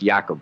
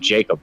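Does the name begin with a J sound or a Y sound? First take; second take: Y sound; J sound. First: The name begins with a Y sound. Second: The name begins with a J sound. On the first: This is how it is pronounced where the name comes from. "like with a Y sound" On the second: Some people just use the familiar English form. "some people just call it Jacob"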